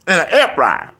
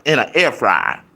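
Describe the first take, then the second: First: "air" pushed higher and louder in the repeat; stress on AIR. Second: Said in the usual way. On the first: Shown as a demonstration. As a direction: hammer home the air fryer.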